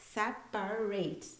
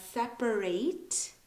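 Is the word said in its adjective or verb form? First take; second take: verb; verb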